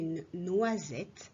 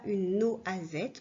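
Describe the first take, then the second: First: The 'oi' is said as one 'wa' sound. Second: The 'oi' is split into two separate vowels. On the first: The speaker calls it right. "on dit" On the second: The speaker calls it wrong. "on ne dit pas"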